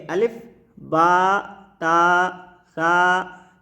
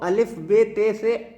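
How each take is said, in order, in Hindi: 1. अक्षरों के नाम 'a' स्वर पर खत्म होते हैं। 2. अक्षरों के नाम 'e' स्वर पर खत्म होते हैं। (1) "इसको ऐसे करके पढ़ना है। ये अरबी लहजा है।" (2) "उर्दू लहजे में अगर हम अलिफ बे पढ़ते हैं तो वो अलिफ बे ते से ऐसे करके पढ़ते हैं"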